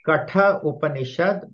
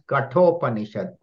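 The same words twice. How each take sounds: First: The final a and initial u stay separate. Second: The a and u merge into one o sound. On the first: "It is Katha Upanishad" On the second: "because of Sandhi rule, becomes Katha Upanishad"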